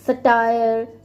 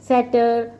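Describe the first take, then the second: First: The word ends with a long 'tire' sound. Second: The word ends with a short 'ter' sound. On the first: "सटायर कह लो या सैटर कह लो" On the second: "सटायर कह लो या सैटर कह लो"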